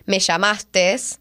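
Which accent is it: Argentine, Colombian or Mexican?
Argentine. It is said with an Argentine accent.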